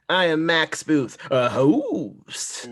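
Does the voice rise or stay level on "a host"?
rise. The voice rises on "a host", like a surprised question.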